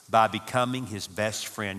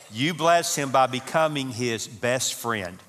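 First: Said in the usual way. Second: "bless" and "best friend" drawn out slowly and firmly; slow, weighty preaching of "you bless him by becoming his best friend"; emphatic point. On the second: Shown as a demonstration. Preacher driving home point five to couples, slow emphatic stress.

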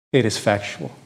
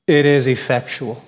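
First: "It is effectual" dropped low and soft; hushed emphasis. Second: Said in the usual way. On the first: Shown as a demonstration. Preacher repeating to the congregation, hushed. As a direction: say it again, lower and softer, for weight.

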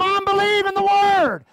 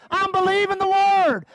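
First: Loud, insistent proclamation of faith; shouted declaration. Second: Said in the usual way. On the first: Pretend. Preacher coaching the church to answer mockers, shouting. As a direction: shout it down the doubters. Congregant told to answer doubters.

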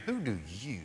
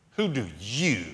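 First: A much softer "who do you?" spoken to one listener; soft, personal question. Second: "you" stressed in "Who do you?"; emphatic you. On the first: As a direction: bring it down and ask one person directly. Asks the listener in the pew. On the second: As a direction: lean hard on the word "you" in "Who do you?". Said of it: "this emphatic "you". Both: Shown as a demonstration.

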